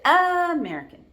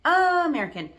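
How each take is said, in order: The two takes are said the same way.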